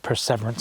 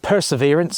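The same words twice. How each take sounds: First: "Perseverance" said as per-SEV-er-ance; alternative pronunciation. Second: Said in the usual way. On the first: Shown as a demonstration. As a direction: say "Perseverance" with "sever" inside it. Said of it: "sometimes it's pronounced". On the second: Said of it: "sometimes it's pronounced Perseverance".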